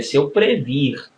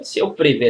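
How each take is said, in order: First: "previr" stressed as the correct form; "se eu previr" with a firm teaching stress. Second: Teacher demos the wrong verb form; "Se eu prever" said as the common mistake. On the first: Teacher gives students the correct "previr" form. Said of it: "é se eu previr". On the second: Teacher at the board shows the wrong "prever" form. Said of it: "não se eu ver". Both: Shown as a demonstration.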